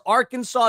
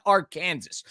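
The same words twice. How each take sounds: First: Arkansas ending in "saw", AR-kan-saw; correct pronunciation. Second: Arkansas said as ar-KAN-zis; mistaken pronunciation. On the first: Host comparing state names, Arkansas said AR-kan-saw. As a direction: say Arkansas with a silent final S. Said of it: "as Arkansas is not Arkansas". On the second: Host showing what it's not, Arkansas as Ar-Kansas. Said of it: "is not Arkansas". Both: Shown as a demonstration.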